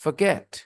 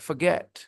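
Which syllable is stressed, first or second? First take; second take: second; second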